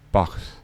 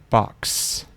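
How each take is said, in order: First: Some sounds of the word are unclear or dropped. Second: Every sound of the word is said clearly. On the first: The speaker calls it wrong. "Don't say box" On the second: The speaker calls it right. "speak clearly all the letters of the words"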